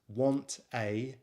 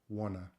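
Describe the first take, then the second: First: Both words are said fully and separately. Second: The words blend into one reduced word.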